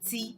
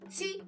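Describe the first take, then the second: First: The word is said on a lower, mid tone. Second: The word is said on a higher tone. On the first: It means 'that of'. "It wouldn't be re" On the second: It means 'that'. "the tone would be higher. ... It would be ti"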